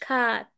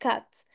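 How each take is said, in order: First: The vowel is drawn out long. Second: The vowel is said short. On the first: The speaker calls it wrong. "انا ما قلتش cat" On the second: The speaker calls it right. "انا قلت cat"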